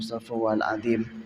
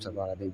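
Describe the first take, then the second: First: It is said slowly and with heartfelt feeling. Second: It is rattled off quickly and carelessly. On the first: The words are meant sincerely. The speaker calls it right. "istighfar pakai hati, memang merenungi" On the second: The words are said without real thought. The speaker calls it wrong. "Jangan gitu"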